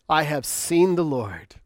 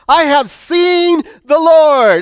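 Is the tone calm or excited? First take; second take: calm; excited. First: It is read in a calm, plain tone. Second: It is said in an excited tone.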